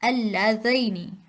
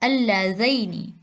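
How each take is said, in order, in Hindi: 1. बीच का स्वर 'a' से 'i' की ओर सरकता है। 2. बीच का स्वर 'a' से 'i' की ओर सरकता है।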